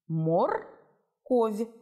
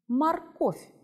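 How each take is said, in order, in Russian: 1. Его читают по буквам, с чётким 'о'. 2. Его произносят естественно, с 'а' и конечным 'f'. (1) "Прочитай слово «морковь» так, как оно пишется" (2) "А теперь произнеси его"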